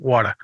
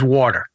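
First: It is said in a New England accent. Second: It is said in a general American accent.

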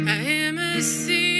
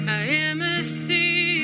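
Both takes have the same delivery.

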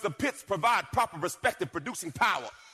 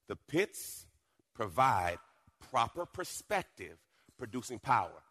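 First: It is said at normal, faster speed. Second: It is said slowly and deliberately.

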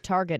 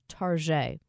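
First: The word is said in the plain, ordinary way. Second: The word is said in a fancy, affected way. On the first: "Instead of Target" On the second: "The fancy way of saying"

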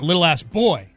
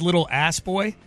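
First: The stress falls on boy. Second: The stress does not fall on boy. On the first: The speaker calls it right. "like stressing boy" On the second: The speaker calls it wrong. "I think I may have stressed the wrong syllable"

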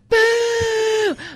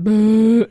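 First: It is shouted like a Halloween ghost. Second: It is a plain disapproving heckle.

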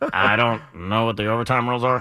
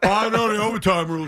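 First: It is a Butthead imitation from Beavis and Butthead. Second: It is a plainer imitation of Kyle.

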